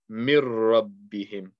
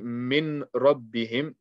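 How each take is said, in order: First: The n sound merges into a doubled r. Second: The n sound is clearly pronounced before r. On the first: The speaker calls it right. "we're not going to read the noon" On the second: The speaker calls it wrong. "instead of saying"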